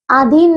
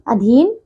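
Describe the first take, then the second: First: अधीन with unaspirated d: adeen; mispronunciation. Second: अधीन with aspirated dh: adheen; correct pronunciation. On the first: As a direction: drop the breath from the "dh" in अधीन. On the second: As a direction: puff the "dh" in अधीन. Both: Shown as a demonstration. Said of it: "अधीन नहीं".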